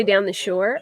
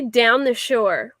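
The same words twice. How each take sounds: First: "down the shore" with a Philly round ow and r; "down the shore", Philadelphia vowels. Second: "down the shore" drawn out, Philly ow; "down the shore" stretched, local accent; slow Philly down the shore. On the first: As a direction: say "down the shore" like a local. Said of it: "I say". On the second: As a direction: spell out "down the shore" slowly for chat. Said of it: "we say". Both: Shown as a demonstration.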